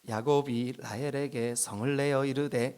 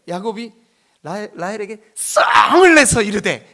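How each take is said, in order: First: It is read in a flat, calm voice. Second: It is read in an angry, heated voice. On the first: The speaker calls it wrong. "이렇게 하시면 안 돼요" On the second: The speaker calls it right. "이렇게 읽어야 돼요"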